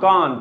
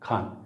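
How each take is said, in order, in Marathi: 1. पहिल्या व्यंजनात श्वासाचा झटका नाही. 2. पहिल्या व्यंजनात श्वासाचा जोरदार झटका आहे. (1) "बाकीचे त्याला म्हणतात कान कान" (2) "माय नेम इज खान"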